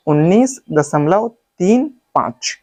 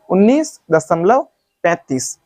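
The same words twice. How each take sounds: First: Correct reading demo. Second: उन्नीस दशमलव, then पैंतीस run together as one number; wrong reading demo. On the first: Teacher showing students the right way, digit-by-digit reading. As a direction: read तीन, पाँच as separate digits. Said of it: "इसको पढ़ने का तरीका मैं बताता हूँ". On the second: Teacher showing students the mistake, demonstrated wrong reading. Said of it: "जो बिल्कुल ही गलत है". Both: Shown as a demonstration.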